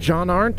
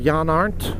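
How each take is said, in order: First: The name is said with an English pronunciation. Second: The name is said with a German pronunciation. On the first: "English pronunciation" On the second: "Deutsch pronunciation"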